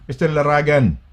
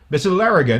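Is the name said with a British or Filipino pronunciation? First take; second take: Filipino; British. First: The name is said with a Filipino pronunciation. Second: The name is said with a British pronunciation. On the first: "But in the Philippines" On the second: "Laragan in the U K"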